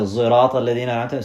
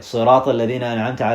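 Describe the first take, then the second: First: The word begins with a z sound. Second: The word begins with an s sound. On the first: "others would say" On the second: "those who could say"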